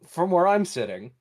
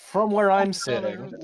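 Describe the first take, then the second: First: It is spoken in the speaker's ordinary accent. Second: It is spoken in a put-on character accent. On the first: "I'm just gonna speak with my normal voice" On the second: "I keep dropping the accent every time I stop using it"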